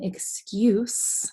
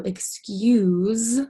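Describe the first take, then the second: First: The word ends with a hissing S sound. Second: The word ends with a buzzing Z sound. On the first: It means a reason that something happened. "excuse with the S sound is like when you have a reason" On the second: It is used when asking pardon, like after a sneeze. "excuse with the Z sound is like when you sneeze"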